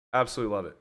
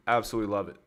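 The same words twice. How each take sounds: The two takes are said the same way.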